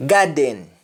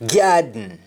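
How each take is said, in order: First: GARDEN with full "den"; English-style vowel ending on GARDEN; English pronunciation. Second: Sung, GARDEN as "gyaad-n"; sung, Jamaican syllabic N in GARDEN; Jamaican humming. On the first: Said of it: "we don't say happen". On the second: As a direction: hum the end of GARDEN. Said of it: "That is harming". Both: Shown as a demonstration.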